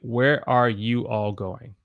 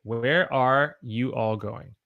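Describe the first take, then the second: First: Every word is said in full. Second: The same.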